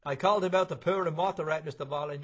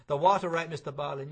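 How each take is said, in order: First: Said in the usual way. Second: Louder repeat. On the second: Acted. Repeated louder to deaf man.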